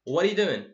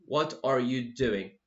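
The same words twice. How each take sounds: First: The words are said fast and run together. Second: Each word is said slowly and fully. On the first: The speaker calls it right. "We just saying them completely, completely fast" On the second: The speaker calls it wrong. "I don't say"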